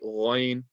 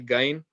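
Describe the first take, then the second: First: The first sound comes from the throat. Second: The first sound is a hard G. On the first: The speaker calls it right. "You want to say Ghain" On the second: The speaker calls it wrong. "it's not like the G, so don't say Gain. It's not from the mouth"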